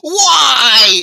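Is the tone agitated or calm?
agitated. It is said in an agitated, intense way.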